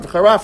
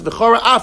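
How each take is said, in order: First: The words run together without a pause. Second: A small pause separates the two words.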